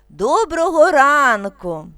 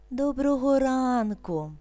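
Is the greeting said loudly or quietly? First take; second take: loudly; quietly. First: The greeting is said loudly. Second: The greeting is said quietly. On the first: "Голосно" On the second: "Тихо"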